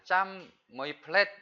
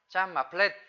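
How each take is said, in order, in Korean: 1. 가운데 단어는 원래 형태대로 말합니다. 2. 가운데 단어는 짧은 음절로 줄어듭니다. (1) "짬 뭐이 플랫 그랬는데" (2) "실제로는 짬 마 플랫 마를 쓰죠"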